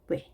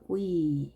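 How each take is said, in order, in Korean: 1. 모음은 짧은 'eh'예요. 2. 모음은 긴 'ee'예요. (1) "원래는 왜로 해야 되겠죠" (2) "워이 해서 위 이렇게 길게 읽어줍니다"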